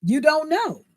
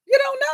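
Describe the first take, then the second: First: Said in the usual way. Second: Much higher shouted repeat. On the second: Real, not acted. Repeating to viewers, now shouting. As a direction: burst out with it the second time.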